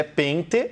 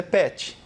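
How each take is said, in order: First: PENTE with the first E through the nose; nasal E. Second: PET as "PEH-chee", open oral E; no nasal sound in PET's vowel. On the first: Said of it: "deixar a vogal anterior com som nasal". ("pente" com E nasal) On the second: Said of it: "Só tornou a vogal anterior com som nasal". ("pet" com E aberto, sem nasalizar) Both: Shown as a demonstration.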